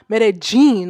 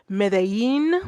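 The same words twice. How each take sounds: First: The 'll' is said as a hard j. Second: The 'll' is said like a y. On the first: "it's not a hard j" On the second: "like a yin"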